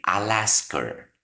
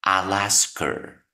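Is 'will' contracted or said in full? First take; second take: contracted; contracted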